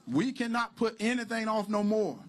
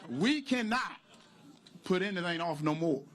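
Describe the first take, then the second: First: "We cannot put anything off no more" said higher and louder, in one push; louder insistence. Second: We cannot, long pause, then the rest; halting emphasis. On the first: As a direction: drive the repeat home, louder. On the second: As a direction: break it up with a heavy pause after "cannot". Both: Acted.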